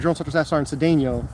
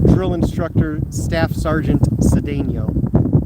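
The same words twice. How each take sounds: First: The phrase is rattled off quickly. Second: The phrase is said slowly and deliberately. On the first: This is the habitual way from boot camp. "I'm used to saying" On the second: This is an unfamiliar, careful way of saying it. "I don't think I've ever said it like that"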